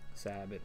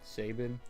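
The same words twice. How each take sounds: First: The first syllable has a short 'sa' vowel. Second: The first syllable rhymes with 'say'. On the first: "you would just put like S A space B I N" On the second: "like the way I say it, you would spell it S A Y B I N"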